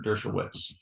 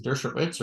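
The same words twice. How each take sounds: First: Dershowitz with a W sound, "Dersho-wits"; alternative pronunciation. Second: Dershowitz with a V sound, "Dersho-vits"; alternative pronunciation. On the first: Asking brother which way to say the author's name, Dershowitz with a W. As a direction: say Dershowitz as "DUR-sho-wits". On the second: Asking brother which way to say the author's name, Dershowitz with a V. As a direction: say Dershowitz as "DUR-sho-vits". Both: Shown as a demonstration. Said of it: "Is it Dershowitz or Dershowitz?".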